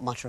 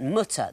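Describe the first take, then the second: First: It is said like the English verb mutter. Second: It is said like German Mutter, meaning mother. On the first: The speaker calls it wrong. "not mutter" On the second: The speaker calls it right. "but mutter"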